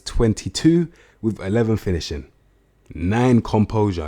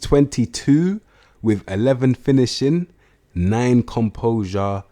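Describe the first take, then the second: First: It is said at a normal, quicker pace. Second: It is said slowly and deliberately.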